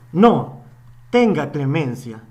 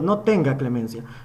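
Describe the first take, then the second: First: There is a pause after no. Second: Said excitedly with no pause after no. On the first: Mercy is being asked for. "si ponemos la coma" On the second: Show no mercy. "estamos eh, exaltados diciendo"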